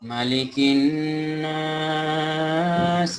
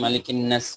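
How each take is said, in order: First: The vowel is drawn out and prolonged. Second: The vowel is short, without prolongation. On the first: The speaker calls it right. "এভাবে টান হবে" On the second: The speaker calls it wrong. "আগের বার এখানেও টান পড়েনি"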